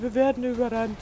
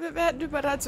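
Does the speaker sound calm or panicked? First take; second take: calm; panicked. First: It is said in a flat, unexcited, calm way. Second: It is said in an alarmed, urgent, panicked way. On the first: The danger does not seem to matter. The speaker calls it wrong. "Und dann" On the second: The danger feels real and frightening. The speaker calls it right. "Das hat sich halt gerade überhaupt nicht so angehört wie, ja, so, oh, scheiße"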